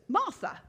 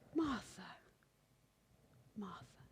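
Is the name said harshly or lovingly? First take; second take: harshly; lovingly. First: The name is said sharply and coldly. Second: The name is said warmly and tenderly.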